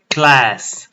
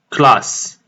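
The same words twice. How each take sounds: First: It is pronounced the English way. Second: It is pronounced the French way. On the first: The speaker calls it right. "We say class" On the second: The speaker calls it wrong. "not class, like French"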